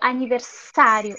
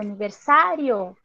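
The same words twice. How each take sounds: First: The middle consonant is a hissing s sound. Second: The middle consonant is a buzzing z sound. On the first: The speaker calls it wrong. "eu não digo aniversário" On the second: The speaker calls it right. "eu digo aniversário"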